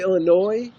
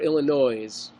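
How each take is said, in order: First: The final S sound is silent. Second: The final S sound is pronounced.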